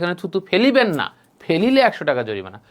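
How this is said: The pause comes after the word না.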